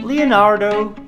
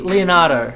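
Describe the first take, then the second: First: An American accent with the R sounded. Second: An Australian accent with the R dropped. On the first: "So in America, of course, they'll be saying" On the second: "But in Australia, it'll be"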